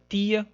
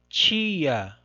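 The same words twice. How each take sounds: First: It begins with a plain t sound. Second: It begins with a ch sound. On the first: This is the usual pronunciation in the Northeast. "como é geralmente pronunciada no, no Nordeste" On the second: This is the usual pronunciation in Rio de Janeiro. "como geralmente nós pronunciamos aqui no Rio de Janeiro"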